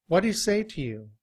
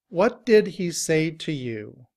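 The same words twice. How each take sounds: First: The word 'did' is shortened and blended with neighbors. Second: Each word, including 'did', is pronounced fully. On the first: "when we reduce our speech" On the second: "in citation form"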